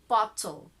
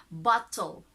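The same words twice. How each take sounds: First: The T is pronounced clearly, British style. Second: The same.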